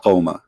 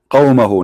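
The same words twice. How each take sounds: First: قومه clipped to qawma, the final hu dropped, in a lower, softer voice; imitating the wrong pronunciation. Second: قومه said in full as qawmahu, with the final hu sounded; correct Arabic pronunciation. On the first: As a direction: mimic the learner's clipped قومه, ending on ma. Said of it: "Don't teach me Arabic". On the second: Shown as a demonstration. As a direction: give قومه its proper Arabic ending, qaw-ma-hu. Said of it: "not قومه".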